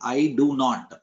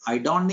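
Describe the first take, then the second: First: The phrase is said in full. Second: The phrase is said as a contraction. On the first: The speaker calls it right. "Pronunciation में आप abbreviation नहीं बोलेंगे" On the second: The speaker calls it wrong. "आई डोंट नहीं"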